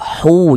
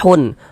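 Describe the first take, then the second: First: The syllable ends without an n sound. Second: The syllable ends with an n sound. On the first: The speaker calls it right. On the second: The speaker calls it wrong. "jangan dibaca hun"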